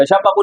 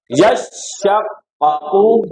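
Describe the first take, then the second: First: यशक्कू run together, short single sh; wrong undoubled reading. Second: यशक्कू very slow, yash-shaq-qa-qu, long sh; correct doubled reading. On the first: Teacher shows what it will not be, quick undoubled reading. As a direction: say यशक्कू briskly, skipping the first doubling. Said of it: "यशक्कू नहीं होगा". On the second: Teacher gives the corrected form, slow doubled recitation. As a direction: draw out यशक्कू, holding both doubled consonants. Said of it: "क्या होगा?". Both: Shown as a demonstration.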